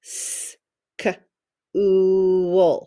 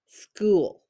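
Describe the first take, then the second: First: "s, k, oo" said as separate sounds, the "oo" held long; tapped-out sounds. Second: Said in the usual way. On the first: Shown as a demonstration. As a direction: sound out "s", "k", "oo" one by one. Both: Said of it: "If you were to tap it out".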